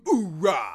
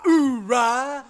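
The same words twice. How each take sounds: First: Booming Marine grunt; loud gung-ho soldier. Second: Booming Marine grunt, high; loud gung-ho soldier. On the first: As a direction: bark it like a hyped Marine. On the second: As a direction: shout it like a pumped Marine. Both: Retold or imitated. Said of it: "Marine chants after a big move".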